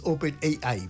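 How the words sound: The letters A and I sound like English letters. The speaker calls it right. "en inglés se dice A I, porque la A es A y la I es I"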